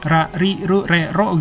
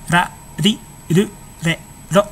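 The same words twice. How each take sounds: First: The consonant is a pure, full r sound. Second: The consonant sounds halfway between l and r. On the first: The speaker calls it wrong. "bukan R murni ya, enggak ra ri ru re ro gitu, enggak" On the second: The speaker calls it right. "deket sama L juga, deket sama R, teng pertengahan gitu"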